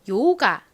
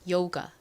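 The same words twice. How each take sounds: First: The final vowel is a clear 'ah' sound. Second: The final vowel is closer to an 'uh' sound. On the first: "A는 한국식으로는 보통 아라고 읽습니다. 요가 이렇게 읽는데요" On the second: "실제 영어 발음은 살짝 어 소리에 가깝게 발음이 나요"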